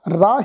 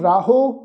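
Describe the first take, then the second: First: The word ends without any added vowel. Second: The word ends with an added 'o' vowel. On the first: The speaker calls it right. "राह ही उच्चारण करांगे" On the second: The speaker calls it wrong. "उन्हों राहो असी उच्चारण नहीं करना"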